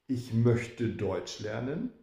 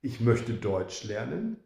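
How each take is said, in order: Both takes have the same delivery.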